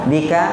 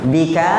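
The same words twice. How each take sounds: The two takes are said the same way.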